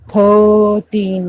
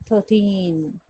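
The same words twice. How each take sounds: First: The stress is on the first syllable. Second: The stress is on the second syllable. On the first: The speaker calls it wrong. "Thirteen नहीं बोला जाएगा" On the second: The speaker calls it right. "मतलब ट पे ज्यादा press stress दिया जाता है"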